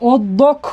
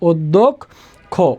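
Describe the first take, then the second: First: The word ends without an 'o' vowel. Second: The word ends with an 'o' vowel. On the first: The speaker calls it wrong. "আমরা অধ্যক্ষ বলি না" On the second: The speaker calls it right. "অধ্যক্ষ বলি তাহলে শব্দের শেষে ও এর মতো একটা উচ্চারণ হয়"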